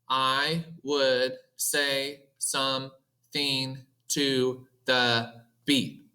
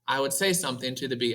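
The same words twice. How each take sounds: First: Every word takes the same steady amount of time. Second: Some words are quicker and some words are slower. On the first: The speaker calls it wrong. "if I were to talk like a robot" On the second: The speaker calls it right. "that's how we would normally say it"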